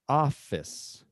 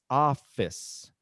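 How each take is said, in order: The two takes are said the same way.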